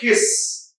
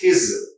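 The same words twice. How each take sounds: First: The word ends in a hissing s sound. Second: The word ends in a buzzing z sound. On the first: The speaker calls it wrong. "It's not his" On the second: The speaker calls it right. "it's his. Za, z"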